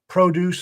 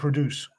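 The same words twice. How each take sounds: First: The stress is on the first syllable. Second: The stress is on the second syllable. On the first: It is a noun. "if you stress the first syllable, it's a noun" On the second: It is a verb. "If you stress the second syllable, it's a verb"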